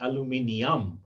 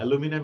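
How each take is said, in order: First: The word is said with five syllables. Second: The word is said with four syllables.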